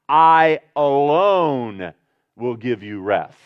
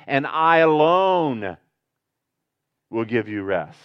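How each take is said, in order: First: "I alone" slow and drawn out, I leaned on hard; stress on I alone. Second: "I alone" slowed right down, alone weighed heavy; stress on I alone. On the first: Preacher stressing to his flock that only Jesus gives rest. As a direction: dwell on "I alone", slow and weighty. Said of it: "it's in the emphatic voice". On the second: Preacher rereading the verse, pressing on "I alone". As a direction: lean into "I alone" slowly. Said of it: "Read it again". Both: Shown as a demonstration.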